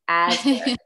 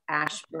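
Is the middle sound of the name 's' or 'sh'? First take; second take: s; sh. First: The name is said with an 's' sound. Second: The name is said with an 'sh' sound. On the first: The speaker calls it right. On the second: The speaker calls it wrong.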